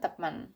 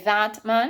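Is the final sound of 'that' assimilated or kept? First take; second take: assimilated; kept. First: The final t of that blends into m. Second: The final t of that is kept clear. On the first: "if we do the assimilation" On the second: "we could say that man is correct"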